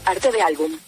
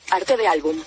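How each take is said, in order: Both takes have the same delivery.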